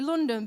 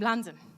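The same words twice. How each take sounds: First: It is said in a standard English accent. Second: It is said in an East London accent.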